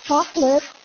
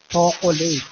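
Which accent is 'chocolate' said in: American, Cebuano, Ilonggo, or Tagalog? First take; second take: American; Tagalog. First: It is said in an American accent, two syllables. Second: It is said in a Manila Tagalog accent. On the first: "Pag nasa Amerika naman, siyempre, may arte na" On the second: "Sa Maynila, siyempre, Tagalog na Tagalog mga tao doon"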